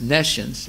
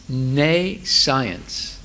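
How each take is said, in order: First: It is said as one blended word. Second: It is split into ne plus science. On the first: The speaker calls it right. "is pronounced nescience" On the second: The speaker calls it wrong. "That's not the way to pronounce it"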